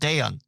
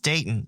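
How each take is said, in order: First: The middle t sound is dropped. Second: The middle t sound is clearly pronounced. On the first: The speaker calls it wrong. "not Dayon" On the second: The speaker calls it right. "It's Dayton"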